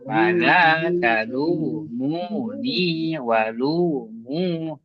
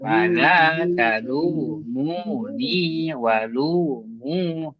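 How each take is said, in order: First: The long vowels swing up to a high pitch. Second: The same.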